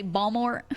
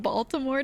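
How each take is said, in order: First: "Balmore" said with the t dropped, bal-more; local dropped t. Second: Said in the usual way. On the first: Shown as a demonstration. Streamer showing a Baltimore local's "Balmore" with no t. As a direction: squash "Balmore" into two syllables, no t. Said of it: "They say Balmore instead of Baltimore". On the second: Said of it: "instead of Baltimore".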